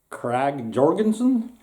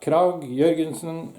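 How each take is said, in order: First: The name is said with an English pronunciation. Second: The name is said with a Norwegian pronunciation. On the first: The speaker calls it wrong. "they're not called, actually called Krag Jorgensen" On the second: The speaker calls it right. "the way we say it here in Norway"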